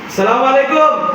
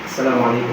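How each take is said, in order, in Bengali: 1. এটা স্বাভাবিক, মাঝারি আওয়াজে বলা হয়। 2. এটা খুব আস্তে, সর্বনিম্ন আওয়াজে বলা হয়। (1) "এমনি বললাম, এটা কি মধ্যম না?" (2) "সর্বনিম্ন আওয়াজটা আমি বললাম"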